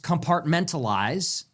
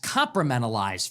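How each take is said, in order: First: The word is said in its standard form. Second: The word is said in a garbled form. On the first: The speaker calls it right. "she can't pronounce compartmentalize" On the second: The speaker calls it wrong. "That's compartmentalize for her"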